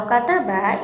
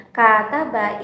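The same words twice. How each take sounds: First: Said in the usual way. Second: "kata ba" with a drawn-out first "a"; "kata ba" pronounced kaa-ta-ba; long first vowel. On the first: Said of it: "itu memiliki durasi pendek". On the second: Shown as a demonstration. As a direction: hold the opening syllable of "kata ba". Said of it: "itu memiliki durasi yang panjang".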